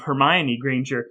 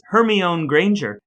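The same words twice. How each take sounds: First: Hermione said as her-my-oh-nee, four syllables; correct name. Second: Put-on Hermione said as her-mee-own, wrong childhood version; mispronounced name. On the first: Correcting his old misreading, Hermione as her-my-oh-nee. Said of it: "instead of Hermione Granger". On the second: Brother recalling a childhood misreading, says Hermione as her-mee-own. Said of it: "for years she was Hermione Granger instead". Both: Shown as a demonstration.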